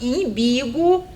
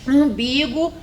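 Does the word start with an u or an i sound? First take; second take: i; u. First: The word begins with an i sound. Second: The word begins with a u sound. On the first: The speaker calls it wrong. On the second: The speaker calls it right.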